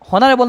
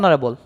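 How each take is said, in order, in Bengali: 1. শব্দটি h ধ্বনি দিয়ে শুরু হয়। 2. শব্দটি স্বরধ্বনি দিয়ে শুরু হয়। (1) "হনারেবল না অনারেবল?" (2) "অনারেবল, তার মানে ও উচ্চারণ হইতেছে।"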